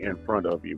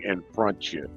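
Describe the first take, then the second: First: The word 'of' is fully pronounced. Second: The word 'of' is dropped. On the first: This is how people outside the country say it. "we don't say in front of you" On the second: This is how people in the country say it. "We say in front you"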